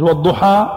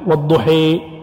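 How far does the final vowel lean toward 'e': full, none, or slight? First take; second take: none; full. First: The final vowel is an open 'a' sound. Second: The final vowel leans fully toward 'e'. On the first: "الفتح" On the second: "إمالة إضجاع تام"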